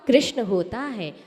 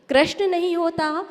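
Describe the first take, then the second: First: कृष्ण said as krishna with a clear ri; कृष्ण pronounced krishna, falling; correct way said. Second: कृष्ण said as krashna, the wrong way; कृष्ण mispronounced krashna with a rising tune. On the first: Teacher modelling the correct कृष्ण, said as krishna. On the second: Teacher showing students the wrong कृष्ण, said as krashna. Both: Shown as a demonstration.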